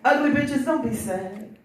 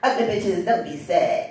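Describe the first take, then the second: First: It is said in his ordinary voice. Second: It is said in a showy entertainer voice.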